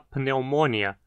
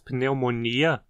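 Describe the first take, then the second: First: The stress is on the third-to-last syllable. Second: The stress is on the second-to-last syllable. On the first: This is the Latin pronunciation. "com acento na antepenúltima" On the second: This is the Portuguese pronunciation. "com acento na penúltima sílaba"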